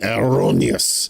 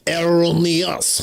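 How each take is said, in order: First: It is said in a plain English accent. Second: It is said in a French accent.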